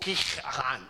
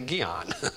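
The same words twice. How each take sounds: First: The name is said with a Hebrew pronunciation. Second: The name is said with an American pronunciation. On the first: The speaker calls it right. "oh, Gihon. I said, that's probably it" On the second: The speaker calls it wrong. "I say Gihon"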